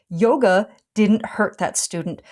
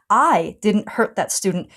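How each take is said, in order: First: "yoga" set apart as the one being cleared; stress on yoga. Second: "I" held and set apart, then falling; stress on I. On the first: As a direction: lean on "yoga", then finish the sentence evenly. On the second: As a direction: lean hard on "I", then let the rest fall. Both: Real, not acted. Contrasting who caused the hurt.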